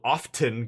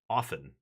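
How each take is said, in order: First: The T is said hard and strongly. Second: The T is left out entirely. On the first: "But then it sounds terrible"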